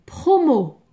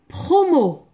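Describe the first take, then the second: No difference in how they are said.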